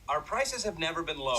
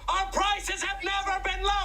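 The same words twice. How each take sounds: First: It is said quietly. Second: It is said loudly.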